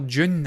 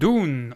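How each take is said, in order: First: It starts with a 'j' sound, like 'june'. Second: It starts with a plain d, like 'doon'. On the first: "as I would call it" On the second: "I'm not from North America"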